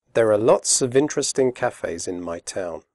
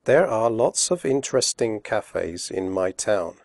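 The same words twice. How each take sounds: First: Quickly. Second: Slowly. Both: Shown as a demonstration. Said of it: "first slowly and then quickly".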